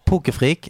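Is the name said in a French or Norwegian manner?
Norwegian. The name is said the plain Norwegian way.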